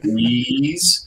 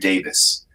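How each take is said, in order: First: The vowels are drawn out and long. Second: The vowels are short and clipped. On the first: The speaker calls it wrong. "we want to elongate the vowels" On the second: The speaker calls it right. "because it sounded more clipped"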